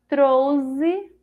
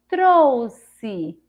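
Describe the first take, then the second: First: The middle consonant is a z sound. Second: The middle consonant is an s sound. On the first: "Com o som de Z" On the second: "Com o som de Si"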